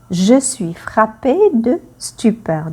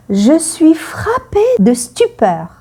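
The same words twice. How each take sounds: First: Said in the usual way. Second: High stunned exclamation; mock stunned "Je suis frappée de stupeur"; acted stupor. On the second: Shown as a demonstration. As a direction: say it as if struck dumb. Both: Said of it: "quand on est surpris".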